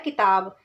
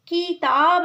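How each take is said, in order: First: The first vowel is short and quick. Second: The first vowel is long and drawn out. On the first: The speaker calls it right. "जल्दी से बोला जा रहा है" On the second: The speaker calls it wrong. "किताब नहीं बोला जा रहा"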